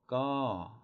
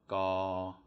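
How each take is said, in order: First: The pitch falls from high to low. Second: The pitch stays level at mid height. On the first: "it's going to be a falling tone" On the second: "it's no tone"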